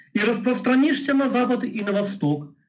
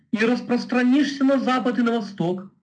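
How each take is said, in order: Both takes have the same delivery.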